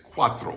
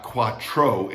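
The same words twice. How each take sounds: First: "cuatro" as kwah-thro; TR as THR. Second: "cuatro" as kwah-tro, hard t; wrong hard TR. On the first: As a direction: say "cuatro" with TH as in throw. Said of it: "T R is like a T H R". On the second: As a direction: say "cuatro" with a plain English T-R. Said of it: "It's not cuatro". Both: Shown as a demonstration.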